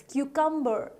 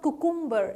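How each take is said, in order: First: "cucumber" as KYOO-kum-ber; correct cucumber. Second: "cucumber" as koo-KOOM-ber; mispronounced cucumber. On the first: Teacher giving learners the right cucumber, correctly pronounced. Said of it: "cucumber is the correct pronunciation". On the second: Teacher warning learners off wrong cucumber, mispronounced. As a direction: say "cucumber" with two oo vowels. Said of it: "It's not cucumber". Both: Shown as a demonstration.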